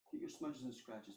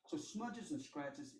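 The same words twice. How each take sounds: First: Said in the usual way. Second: Smudges and scratches drawn out very slowly, each word leaned on; slow stressed list. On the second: Shown as a demonstration. Teacher to students, stressing smudges and scratches slowly.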